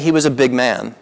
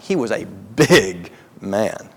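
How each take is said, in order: First: The word big is said plainly, without emphasis. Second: The word big is strongly emphasized.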